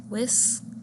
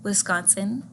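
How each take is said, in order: First: "Wis-con-sin" broken into three separate syllables. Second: Said in the usual way. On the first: Shown as a demonstration. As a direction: say "Wis-con-sin" one beat at a time, pausing between syllables. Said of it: "counting the number of syllables". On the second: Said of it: "when you say the word".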